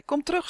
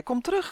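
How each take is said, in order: First: High, rising call like a buzz. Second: High, shrieked call, held long. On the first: Boy buzzing after his duck friend, high and pleading. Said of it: "zoemde hij". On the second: Boy screaming after his duck friend, shrieking high. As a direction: scream it with your loudest human voice. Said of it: "gilde hij met zijn hardste mensenstem". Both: A narrator's reading.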